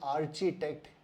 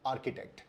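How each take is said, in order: First: The first syllable has a ch sound. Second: The first syllable has a k sound. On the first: The speaker calls it wrong. "A R सी एच उसको हम pronounce करते हैं आर्च" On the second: The speaker calls it right. "इसका सही उच्चारण है आर्किटेक्ट"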